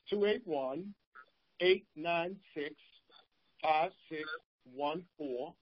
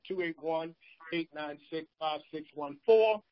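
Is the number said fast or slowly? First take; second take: slowly; fast. First: The number is said slowly. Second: The number is said fast.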